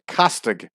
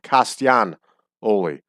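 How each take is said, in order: First: The middle G is sounded as hard G. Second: The middle G becomes a soft glide. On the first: The speaker calls it wrong. "pronouncing the G" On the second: The speaker calls it right. "the G would become a W sound"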